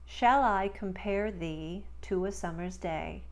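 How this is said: It is spoken in a neutral American accent. "in standard neutral American speech"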